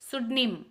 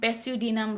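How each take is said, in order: First: The word starts directly with an s sound. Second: The word starts with a pronounced p sound. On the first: The speaker calls it right. "इसका pronunciation है सुडिम सुडनिम सुडनिम" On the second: The speaker calls it wrong. "कोई भी पढ़ेगा तो क्या पढ़ेगा, पेस्यूडिनम"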